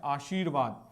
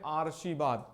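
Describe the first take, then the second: First: "आशीर्वाद" said as "aasheervaad", r after shee; correct pronunciation shown. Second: "आशीर्वाद" said as "aarshivaad", r before the sh; wrong pronunciation shown. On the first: Teacher gives students the right word, "आशीर्वाद" as "aasheervaad". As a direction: say "आशीर्वाद" lower, with r before vaad. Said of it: "सही शब्द क्या है?". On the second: Teacher reads the misspelling aloud, "आशीर्वाद" as "aarshivaad". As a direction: say "आशीर्वाद" with r moved forward to "aar". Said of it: "हम क्या पढ़ रहे हैं?". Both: Shown as a demonstration.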